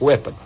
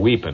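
First: The word is pronounced in the ordinary way. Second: The word has an altered, military-style pronunciation.

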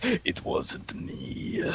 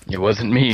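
First: It is said in a put-on Metal Gear voice. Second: It is said in his regular voice.

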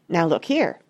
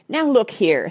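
First: It is said in a quieter voice. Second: It is said loudly and fiercely.

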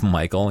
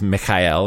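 First: The name is said with a plain English pronunciation. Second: The name is said with a Russian-style pronunciation. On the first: It is just his ordinary name. "instead of Michael" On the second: It mocks him as a communist. "would refer to him as Michael ... commie reference"

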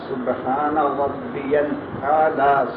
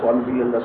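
First: The phrase is said slowly and calmly. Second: The phrase is said quickly and rushed. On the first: The speaker calls it right. "ایسے اطمینان سے تین بار کہا جا سکے" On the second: The speaker calls it wrong. "ایسے نہیں جیسے آپ کہتے ہیں"

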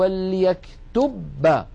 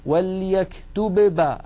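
First: The b is articulated once, as one doubled sound. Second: The b is articulated twice, with separate closures. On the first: "فيقرعون المخرج قرعة واحدة" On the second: "ألا تلاحظون أن كالذي يعيد الشيء مرتين؟"

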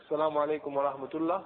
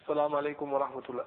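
Both takes have the same delivery.

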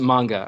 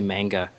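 First: The first vowel is plain, not nasal. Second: The first vowel is a nasal East Coast A.

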